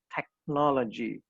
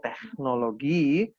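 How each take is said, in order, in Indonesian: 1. Kata ini diucapkan dengan pelafalan Inggris. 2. Kata ini diucapkan dengan pelafalan Jerman. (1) "kalau orang Inggris bilangnya technology" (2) "Kalau orang Jerman bilangnya teknologi"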